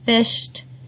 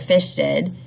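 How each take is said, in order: First: The ending is a plain t sound. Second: The ending adds an extra id syllable. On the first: The speaker calls it right. "the last sound is motor off" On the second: The speaker calls it wrong. "we want don't want them to say"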